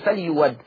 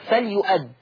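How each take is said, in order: First: A 'w' sound is heard after the 'y' sound. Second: A glottal stop is heard after the 'y' sound. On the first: "الإبدال ومفتوح فتصير" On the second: "لاحظوا الهمزة"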